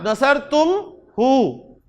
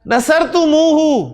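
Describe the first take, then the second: First: There is a break after 'tum' before 'hu'. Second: It flows on, with 'tum' joined through 'muhu'. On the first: The speaker calls it wrong. "तुम पे रुक रहे हैं आप" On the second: The speaker calls it right. "रुकता नहीं है अरब"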